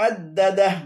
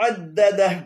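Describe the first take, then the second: Both takes have the same delivery.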